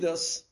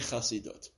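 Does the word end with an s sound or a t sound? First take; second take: s; t. First: The word ends with an s sound. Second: The word ends with a t sound. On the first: The speaker sounds like a real insider. The speaker calls it right. "If you say Chasidus, they'll let you right in" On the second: The speaker sounds like an outsider visiting. The speaker calls it wrong. "You sound like a Mizrachinik who's on a field trip"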